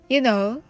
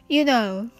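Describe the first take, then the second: The two takes are said the same way.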